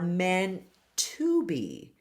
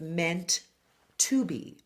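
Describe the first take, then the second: First: The two T sounds merge into one. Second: Both T sounds are pronounced separately.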